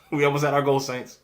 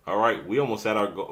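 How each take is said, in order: First: Fast, louder, higher preacher's appeal with a laugh; church offering appeal. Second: Said in the usual way. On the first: Pretend. Host jokingly calling her viewers saints like a preacher. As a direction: hype it like a pastor raising the offering. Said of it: "like I'm raising a church offering".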